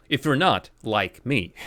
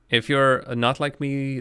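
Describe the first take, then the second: First: Not stretched and stressed. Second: Slow, weight on you're; stress on you're. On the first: Gamer rereading a clue with stress on not. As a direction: hit the word not, rereading it. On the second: Viewer reading the game's clue with stress on you're. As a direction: lean on the word you're, unhurried. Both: Shown as a demonstration.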